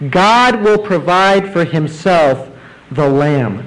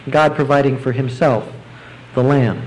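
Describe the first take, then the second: First: Slow, weighty, stressing God; slow emphatic repeat. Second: Said in the usual way. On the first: Shown as a demonstration. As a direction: let each word land. Preacher repeats key phrase, slowed.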